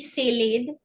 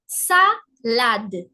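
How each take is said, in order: First: The a vowels are not open 'ah' sounds. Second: The a vowels are open 'ah' sounds. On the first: The speaker calls it wrong. "never will it be" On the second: The speaker calls it right. "the sound is A"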